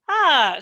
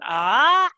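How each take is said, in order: First: The pitch falls sharply from high. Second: The pitch rises from mid to high. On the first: "and then down" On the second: "and then the rising tone"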